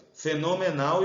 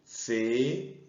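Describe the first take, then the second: First: Said in the usual way. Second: "Fenomenal" slowly, fe, no, me, nal, with pauses; syllable by syllable. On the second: Shown as a demonstration. Teacher separates the word before calling it, "Fenomenal" in isolated syllables.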